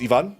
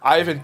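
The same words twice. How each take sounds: First: The name is said with Spanish sounds. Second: The name is said with English sounds. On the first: The speaker calls it right. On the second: The speaker calls it wrong.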